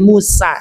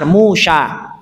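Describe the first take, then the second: First: The name is said with an 's' sound. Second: The name is said with a 'sh' sound. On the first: This is the form the Arabs changed it into. "sin kecil" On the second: This is the original Hebrew form of the name. "asalnya adalah pakai shin besar"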